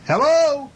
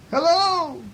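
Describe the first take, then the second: First: High, loud storybook call; shouted hello. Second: Very high echoed hello; moon's echo. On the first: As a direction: holler up to the moon. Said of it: "he shouted". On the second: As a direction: echo the call back, pitched way up. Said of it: "replied the moon". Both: A narrator's reading.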